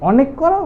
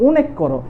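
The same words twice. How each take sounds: First: First option, অনেক as "aw-nek"; open অ vowel. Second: Second option, অনেক as "oh-nek"; closed "oh" at the start of অনেক; closed ও vowel. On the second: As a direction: offer অনেক with a rounded first vowel, "oh". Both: Shown as a demonstration. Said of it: "তুমি কোনটা উচ্চারণ করো".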